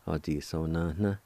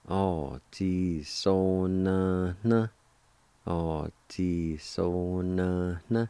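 First: Said in the usual way. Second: "O ji so na na." stretched slowly; slow, careful teaching pronunciation; slow demo. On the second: Shown as a demonstration. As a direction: draw out every syllable of "O ji so na na.". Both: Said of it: "it's pronounced like this".

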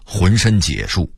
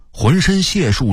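First: 浑身解数 with 解 as jiě; misreading. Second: Said in the usual way. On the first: Shown as a demonstration. Narrator owning an old mistake, misreading 解. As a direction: read 解 in 浑身解数 as jiě, not xiè. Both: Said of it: "我念了好几年的".

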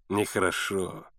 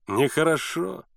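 First: Low, softer mock reproach, falling; smug, low disapproval; insolent smile. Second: Lilting mock reproach, rising at the end; smug, sing-song disapproval; insolent smile. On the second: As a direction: taunt through a smile, voice lifting. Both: A narrator's reading. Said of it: "нагло улыбаясь, повторил лодочник".

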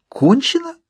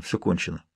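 First: Very high, sharply rising question; outraged disbelief. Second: Very soft, low, resigned mumble; grumbled mutter. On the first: Narrator outraged at the medium giving up, incredulous. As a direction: echo the word in indignation. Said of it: "Мне захотелось тут же задушить его". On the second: Medium declaring it all over, grumbling. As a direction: let it drop, low and defeated. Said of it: "пробурчал он". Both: A narrator's reading.

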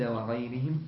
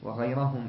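First: وغيرهم read with an i after the r, "ghayrihim"; genitive misreading. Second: وغيرهم read with an a after the r, "ghayrahum"; accusative ending. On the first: Student reading the text aloud to his teacher, genitive misreading of وغيرهم as "ghayrihim". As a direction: say وغيرهم with kasra on the ra. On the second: Student rereading after the teacher's correction, accusative وغيرهم as "ghayrahum". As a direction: say وغيرهم with fatha on the ra. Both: Real, not acted. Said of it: "لا، وغيرهم".

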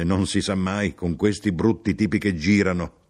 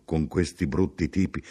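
First: Slightly louder, animated grumble; chatty complaint to a stranger; lively grumbling. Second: Subdued, even echo at usual pitch; understated polite agreement; noncommittal echo. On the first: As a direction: confide a grumble with some energy. Traveller's lively take on echoed phrase. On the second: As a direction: repeat it back without investment. Narrator echoes him noncommittally. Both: Acted.

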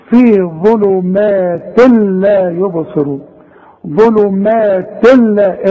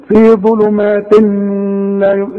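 First: Slow "ظلمات لا", merged straight into the lam; tanween not pronounced. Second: Mistaken take, humming between "ظلمات" and "لا"; wrong nasal hum. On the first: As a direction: drop the n of "ظلمات" before "لا", no hum. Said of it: "مش هنطق التنوين ده". ("ظلمات لا" بإدغام التنوين من غير غنة) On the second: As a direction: imitate the error of holding a hum into "لا". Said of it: "اوعى تقول لي". (sung, تقليد الغلط: غنة بين "ظلمات" و"لا") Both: Shown as a demonstration.

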